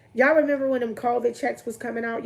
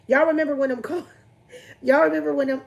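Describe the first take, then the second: First: Said in the usual way. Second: Laughing. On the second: Real, not acted. Laughing over a memory.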